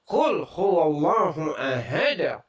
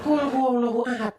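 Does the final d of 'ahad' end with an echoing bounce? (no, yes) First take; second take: yes; no. First: The final d is released with a bounce. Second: The final d is cut off flat. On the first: The speaker calls it right. "tapi ... Harus ada, harus ada, ada gitu" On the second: The speaker calls it wrong.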